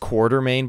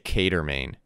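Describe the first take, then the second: First: An R sound follows the first vowel. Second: No R sound follows the first vowel. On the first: "Everyone says Quartermain" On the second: "there's no R there. So I say Catermain"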